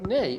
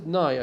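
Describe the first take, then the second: First: The vowel sounds like 'ay' in day. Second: The vowel sounds like 'eye' in high. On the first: "or maybe it is nay" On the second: "the pronunciation is I"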